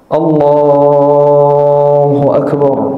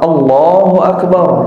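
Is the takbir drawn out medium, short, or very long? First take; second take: medium; short. First: The vowels are lengthened moderately, not excessively. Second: It is said quickly with short vowels. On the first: "dipanjangin tapi enggak terlalu kelamaan" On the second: "Ini model yang cepat"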